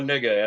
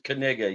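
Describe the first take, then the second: First: The name starts without a K sound. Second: The name starts with a K sound. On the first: The speaker calls it wrong. "The announcers say it wrong all the time" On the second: The speaker calls it right. "You pronounce the K"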